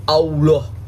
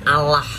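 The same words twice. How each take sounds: First: Mock Allah as au-loh with a rounded o; wrong pronunciation. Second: "Allah" said plainly as a-lah, no rounded o; Allah with a clear open a, the Indonesian way; correct pronunciation. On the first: Mocking the critic, Allah said as au-loh. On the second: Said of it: "dibacanya Allah". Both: Shown as a demonstration.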